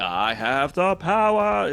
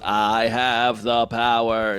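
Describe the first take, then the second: First: The pitch rises up through the phrase. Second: The pitch stays flat throughout. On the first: The speaker calls it right. "It's supposed to go up" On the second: The speaker calls it wrong. "He he just says he's flat. He's like"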